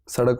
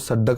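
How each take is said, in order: First: It starts with s and has a single d. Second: It starts with s and has a doubled d.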